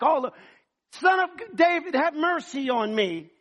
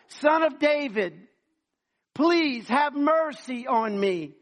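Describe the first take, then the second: First: Loud, high desperate cry for mercy; belligerent shouting. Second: Slow, loud drawn-out plea; louder pleading. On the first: Blind beggar shouting to Jesus over the crowd, desperate yell. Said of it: "so he's probably like". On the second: Blind man begging louder as the crowd hushes him, slow loud plea. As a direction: stretch each word, begging harder. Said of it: "the louder he got". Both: Acted.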